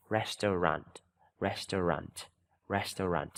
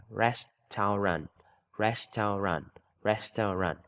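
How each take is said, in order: First: "Restaurant" said quicker, run together; faster reading. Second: "Restaurant" slowly in three parts, rest-au-rant; slow reading. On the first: Teacher moving pupils to faster repetition. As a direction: speed up "restaurant" now. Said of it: "Mình đọc nhanh lên xíu". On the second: Teacher showing pupils the slow way, syllable by syllable. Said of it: "mình đọc chậm thôi". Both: Shown as a demonstration.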